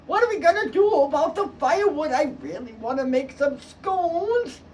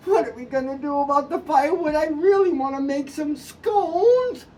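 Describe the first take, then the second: First: Lightly voiced mother, higher and pleading; a hint of a fretting mom; mother's plea. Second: A hint of a fretting mom; mother's plea. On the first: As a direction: whine about the scones. Mother wants firewood. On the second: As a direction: drag out the scones line. Mother repeats her plea.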